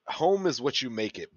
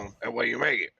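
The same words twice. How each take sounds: First: It is said in a plain accent. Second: It is said in a Cajun accent.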